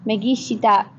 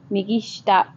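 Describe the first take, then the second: First: "shita" said shi-ta with the i clearly voiced; full vowel shita. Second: "shita" said as shta, the i swallowed; dropped i. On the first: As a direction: say "migi shita" sounding every vowel. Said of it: "you can say migi shita". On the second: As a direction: run "migi shita" together as migi shta. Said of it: "that I gets dropped and it's migi shita". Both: Shown as a demonstration.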